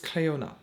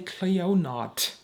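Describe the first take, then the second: First: The name ends in a vowel, no t sound. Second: The name ends with a t sound. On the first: The speaker calls it right. "although I know it is Cleona" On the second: The speaker calls it wrong. "You do not say Cleonot"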